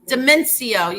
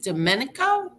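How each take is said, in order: First: The name is said as Demencio. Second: The name is said as Domenico. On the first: The speaker calls it right. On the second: The speaker calls it wrong.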